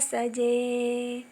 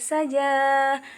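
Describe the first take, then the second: First: The word ends in an e sound. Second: The word ends in an open a sound. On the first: This is how it is recited. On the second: This is how it is written.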